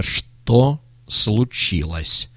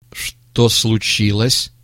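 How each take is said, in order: First: Put-on very slow, pressing old man; suspicious demand. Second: Put-on slow, suddenly guarded old man; wary question. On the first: Old man repeats his question to the young man, suspicious. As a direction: weigh each word, leaning on «Что». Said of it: "Старик прищурился". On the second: Old man alarmed by the young man's words, wary. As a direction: stretch it out on alert. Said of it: "насторожился вдруг от этих слов старый". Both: A narrator's reading.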